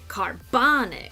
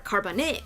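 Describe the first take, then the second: First: The stress is on the middle syllable. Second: The stress is not on the middle syllable. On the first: The speaker calls it right. "The bon is where the stress is" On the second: The speaker calls it wrong. "or carbonic"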